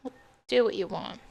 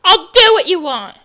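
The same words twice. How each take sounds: First: Much softer, fast, crushed repeat; mother repeats it quietly, close to sobbing; broken surrender. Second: Loud, bitter shout; mother gives in, shouting through tears; loud outburst. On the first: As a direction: let the words collapse into defeat. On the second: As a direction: fling the words out in anger. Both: Acted. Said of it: "Your mom sobbed uncontrollably".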